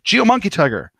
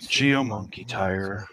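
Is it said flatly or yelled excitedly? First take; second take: yelled; flatly. First: It is yelled with excitement. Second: It is said flatly, with a sigh.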